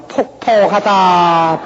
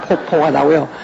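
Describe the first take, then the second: First: Drawn-out, slow wailing 폭폭하다; mock ghost wail. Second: Said in the usual way. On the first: Preacher mimics a western Jeolla ghost, slow wail. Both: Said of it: "서쪽에 가면요".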